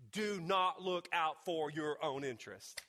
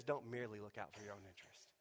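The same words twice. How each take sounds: First: "not" held slow and heavy, the whole line slow; stress on not. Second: "Don't merely" said quick and quiet, "merely" marked; stress on merely. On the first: Preacher showing the wrong reading of the verse, slow stress on "not". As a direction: lean hard on "not" as the misreading. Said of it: "He does not say". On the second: Preacher giving the verse's real wording, quick and quiet, marking "merely". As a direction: soften it, point to "merely". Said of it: "He says". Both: Shown as a demonstration.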